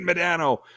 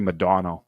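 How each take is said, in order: First: The name is said the usual, familiar way. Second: The name is said to sound like 'Madonna'. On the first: The speaker calls it wrong. "We've been saying [name] for thirty years" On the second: The speaker calls it right. "It's actually [name]"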